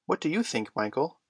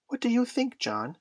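First: Lightly voiced boy, raised pitch at first; John asking. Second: Very high little-brother voice; small boy asking. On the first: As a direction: ask your brother, lightly boyish. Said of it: "asked John". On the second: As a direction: ask big brother in a high child's voice. Small Michael asks his brother. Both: A narrator's reading.

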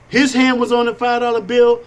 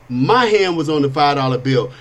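First: "His" hit high and firm; stress on his. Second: "My" pressed lower and firm; stress on my. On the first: Retelling the nightclub cash handoff, "His" stressed high. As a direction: lean into "His", the bouncer's hand. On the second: His own hand on the bill, "My" stressed low. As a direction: land on "My" against "His". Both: Retold or imitated.

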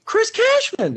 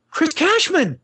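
First: Even higher, more insistent call of his name. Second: High excited call across the airport; fan calling his name. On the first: Fan keeps calling the host's name across the airport, higher insistent call. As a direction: call again, sure it's him. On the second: Fan spots the game host at the airport, high excited call. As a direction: shout his name, thrilled to spot him. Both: Retold or imitated. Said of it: "and this girl goes".

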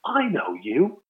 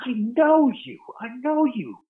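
First: Recognizing voice. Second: High, insistent imitation of Branson recognizing someone; mock-excited "I know you" in a high put-on voice; Richard Branson, high. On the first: Retold or imitated. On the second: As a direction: pitch way up, a hammed-up tycoon voice. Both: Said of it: "I hear this voice going".

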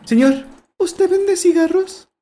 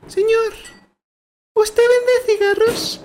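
First: Put-on very high, slow child voice, cigarros with a plain s; a little kid asking without the Spanish lisp; Mexican kid. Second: Put-on very high, slow child voice with Spanish lisp on cigarros; a little kid asking, lisping like a Spaniard; Spanish-accented kid. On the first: A little boy asking the shopkeeper for cigarettes, high Mexican voice. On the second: A little boy asking the shopkeeper for cigarettes, high Spanish accent. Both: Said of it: "no es español".

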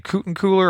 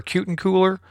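First: Kutencooler said with KOO at the start; tentative pronunciation. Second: Kutencooler said with KYOO at the start; alternative pronunciation. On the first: Host guessing a guest's surname, Kutencooler as KOO-ten-cooler. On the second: Host offering another guess at a surname, Kutencooler as KYOO-ten-cooler. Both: Shown as a demonstration. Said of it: "pronounce her last name".

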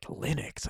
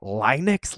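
First: Breathless, puzzled whisper of a strange word; baffled whisper. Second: Voiced, rising, trying the word out; puzzled question. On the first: Retold or imitated. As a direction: barely voice it, lost and confused. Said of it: "What is that word?". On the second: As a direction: test the new word with a questioning lift. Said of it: "I'd never even heard this word before".

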